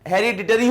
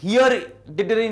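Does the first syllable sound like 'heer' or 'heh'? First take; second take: heh; heer. First: The first syllable has a short 'e' vowel. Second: The first syllable sounds like the word 'here'. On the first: The speaker calls it right. "हेरिडिटरी होता है" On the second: The speaker calls it wrong. "हियरिडिटरी नहीं होता"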